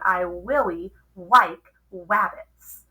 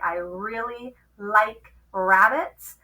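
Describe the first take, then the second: First: The r sounds are said as W. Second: The r sounds are said as clear R. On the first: The speaker calls it wrong. "if we don't use good sounds, it might sound" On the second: The speaker calls it right. "if we say those sounds correctly"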